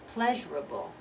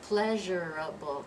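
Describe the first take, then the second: First: It is said with three syllables. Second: It is said with four full syllables. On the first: The speaker calls it right. "we're dropping that second syllable" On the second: The speaker calls it wrong. "It's not pleasurable"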